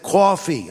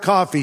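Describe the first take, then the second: First: "Coffee" in an imitated New York accent. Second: Said in the usual way. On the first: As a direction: mimic a New Yorker saying "Coffee" with a rounded first vowel. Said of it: "from New York". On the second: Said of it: "Say the word coffee".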